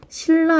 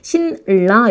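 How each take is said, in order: First: The first syllable ends in an l sound. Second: The first syllable ends in an n sound. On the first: The speaker calls it right. "신라 이렇게 발음을 합니다" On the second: The speaker calls it wrong. "요거를 신라 이렇게 발음하지 못하잖아요"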